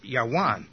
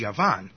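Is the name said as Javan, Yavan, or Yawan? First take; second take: Yawan; Yavan. First: It begins with a Y sound and has W. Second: It begins with a Y sound and has V. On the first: "in ancient times, it probably would have been pronounced Yawan" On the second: "In Hebrew, the word for Greece is Yavan"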